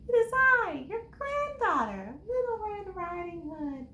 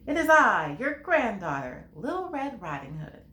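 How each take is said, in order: First: It is said in a high, squeaky voice. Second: It is said in a normal voice.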